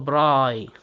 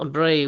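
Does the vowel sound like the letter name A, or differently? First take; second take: different; letter name. First: The vowel does not sound like letter A. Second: The vowel sounds like the letter name A. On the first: The speaker calls it wrong. "ولا تنطق براي" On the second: The speaker calls it right. "تنطق براي"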